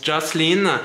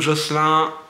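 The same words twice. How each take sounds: First: The name is pronounced the English way. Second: The name is pronounced the French way.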